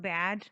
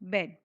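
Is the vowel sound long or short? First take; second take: long; short. First: The vowel is long and open, like in 'bad'. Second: The vowel is short, like in 'bed'. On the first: The speaker calls it wrong. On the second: The speaker calls it right.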